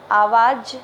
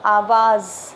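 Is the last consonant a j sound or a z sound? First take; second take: j; z. First: The last consonant is a j sound. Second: The last consonant is a z sound. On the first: The speaker calls it wrong. "आवाज नहीं बोला जाता" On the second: The speaker calls it right. "ज बिंदु वाले ज का प्रयोग हुआ है"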